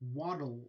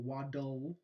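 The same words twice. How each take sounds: First: The d releases straight into the l sound. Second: A short vowel is heard between d and l. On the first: The speaker calls it right. "A lateral release" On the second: The speaker calls it wrong. "you're not saying waddle, waddle"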